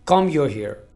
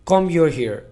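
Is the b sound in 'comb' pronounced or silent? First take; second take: silent; silent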